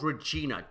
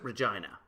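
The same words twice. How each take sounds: First: The name ends without rhyming with 'vagina'. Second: The name ends rhyming with 'vagina'. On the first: This is an outsider's way to avoid the rude rhyme. "It's called Regina" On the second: This is the local way to say the city's name. "Do not pronounce it Regina"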